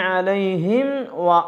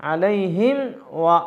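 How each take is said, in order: Both takes have the same delivery.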